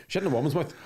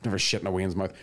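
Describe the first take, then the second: First: "woman's" said carefully as two syllables, woo-man's, with a rising lift on "in"; clear woman's. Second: Said in the usual way. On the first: Shown as a demonstration. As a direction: spell out "woman's" so it can't be heard as "Wayne's".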